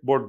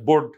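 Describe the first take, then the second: First: The vowel is said short. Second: The vowel is said short.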